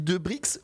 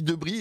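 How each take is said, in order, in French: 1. Le x final se prononce ks. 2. Le x final est muet. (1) "je dis Debrix" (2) "ou je dis Debris et ça ne se prononce pas le"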